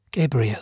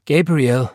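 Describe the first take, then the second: First: Said in the usual way. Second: Raised, louder call of the name. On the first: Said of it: "sagte seine Mutter". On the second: A narrator's reading. Aunt Florence calls out to her brother, raised voice. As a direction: call him sharply to account. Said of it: "rief Tante Florence".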